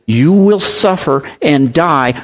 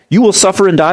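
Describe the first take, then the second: First: "You will suffer and die" spoken slowly and gravely, each word weighed; slow solemn quote. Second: Said in the usual way. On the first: Retold or imitated. Preacher quoting Jesus to the congregation, slow and solemn. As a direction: lay out the promise slowly and solemnly. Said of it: "Jesus promised us". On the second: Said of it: "When somebody hears that".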